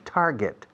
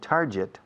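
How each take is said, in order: First: The second syllable sounds like the word 'get'. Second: The second syllable does not sound like 'get'. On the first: The speaker calls it right. "El verbo to get, se pronuncia get, ¿no? Pues pon tar delante" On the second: The speaker calls it wrong.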